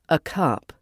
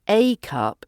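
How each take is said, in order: First: The word 'a' is reduced to a schwa. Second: The word 'a' is said as a full 'ay'.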